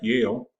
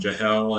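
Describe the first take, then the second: First: The name begins with a Y sound. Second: The name begins with a J sound. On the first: The speaker calls it right. "which is in fact Yale" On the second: The speaker calls it wrong. "I don't get the proper pronunciation of my name"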